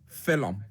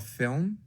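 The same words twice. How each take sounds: First: Said as two syllables in an Irish accent. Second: Said as one syllable in an American accent. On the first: "You just add a cheeky little silent U" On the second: "Americans would say a film"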